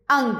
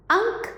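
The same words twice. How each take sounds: First: अंग ending in a voiced g; pronunciation demo. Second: अंक ending in a hard k, pitched high; pronunciation demo. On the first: Teacher contrasting similar-sounding words, clear demo of अंग. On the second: Teacher reading a similar-sounding pair, high demo of अंक. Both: Shown as a demonstration. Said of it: "समान सा अंतर है".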